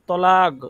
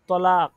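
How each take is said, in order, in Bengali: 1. শব্দটি একটি গলা থেকে আসা gh ধ্বনি দিয়ে শেষ হয়। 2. শব্দটি একটি সাধারণ k ধ্বনি দিয়ে শেষ হয়। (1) "শেষে গাইন চলে আসবে" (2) "শেষে আপনার কফের জায়গায় কাফ চলে আসবে"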